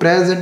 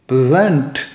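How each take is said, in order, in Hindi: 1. Stress पहले syllable पर है। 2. स्ट्रेस दूसरे सिलेबल पर है। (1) "मैं इसको प्रेजेंट नहीं बोलूंगा" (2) "मैंने प्रे को स्ट्रेस ही नहीं किया, स्ट्रेस किस पे दिया, जेंट पर"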